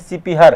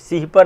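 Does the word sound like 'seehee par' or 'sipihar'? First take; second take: sipihar; seehee par. First: It is said as 'sipihar', one word. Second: It is said as 'seehee par', two parts. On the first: The speaker calls it right. "सिपिहर है" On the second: The speaker calls it wrong. "सीही पर नहीं है"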